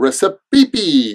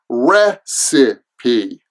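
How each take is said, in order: First: The word is said with fewer than three syllables. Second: The word is said with three syllables. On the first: The speaker calls it wrong. "it kind of looks like recipe or recipe" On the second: The speaker calls it right. "there are three syllables"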